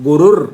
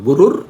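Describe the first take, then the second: Both takes have the same delivery.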